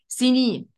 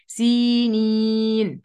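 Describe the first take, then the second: First: The vowel after the first S is short. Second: The vowel after the first S is long. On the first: The speaker calls it wrong. "في ناس كتير بتغفل عنها فتقول إيه" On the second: The speaker calls it right. "في ياء بعد السين، اخد بالي منها كويس"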